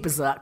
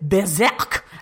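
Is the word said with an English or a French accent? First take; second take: English; French. First: It is said with a plain English accent. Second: It is said with a mock French accent.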